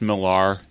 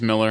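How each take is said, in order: First: The last syllable has an 'ar' sound. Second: The last syllable has an 'er' sound. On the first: It follows the written spelling. The speaker calls it wrong. "we all say Millar because he spells it crazily" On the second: It is said like the common surname. The speaker calls it right. "Is it not just Miller?"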